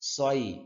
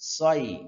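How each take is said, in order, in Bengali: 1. s উচ্চারণ মোটা ও ভারী। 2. s উচ্চারণ মোটা ও ভারী।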